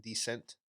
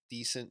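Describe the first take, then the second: First: DESCENT stressed on the second syllable. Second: DECENT stressed on the first syllable. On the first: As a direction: say DESCENT as dee-SENT. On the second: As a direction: say DECENT as DEE-sent. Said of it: "two C's for decent". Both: Shown as a demonstration.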